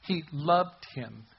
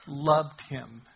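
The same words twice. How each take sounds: First: "loved" drawn out slowly with a falling tune; slow emphasis on loved. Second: Said in the usual way. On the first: Shown as a demonstration. Preacher stressing Jesus' love to the congregation, slow and tender. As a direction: let "He loved him" sink in slowly.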